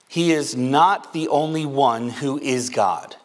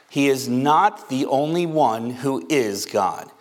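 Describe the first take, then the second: No difference in how they are said.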